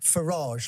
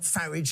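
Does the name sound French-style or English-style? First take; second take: French-style; English-style. First: It is said with a French-sounding ending. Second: It is said with an English-sounding ending.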